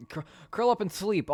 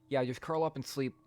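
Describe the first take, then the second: First: Mock urging. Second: Said in the usual way. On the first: Repeats suggestion louder, higher.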